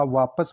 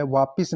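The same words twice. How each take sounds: First: Said in the usual way. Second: वापिस ending in "pis"; short i in the second syllable of वापिस; mispronounced वापस. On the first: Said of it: "वापस होता है". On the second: Shown as a demonstration. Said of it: "वापिस नहीं होता".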